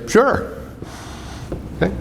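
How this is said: It is said in an eager, enthusiastic tone. The speaker gladly agrees. "you're enthusiastic about it"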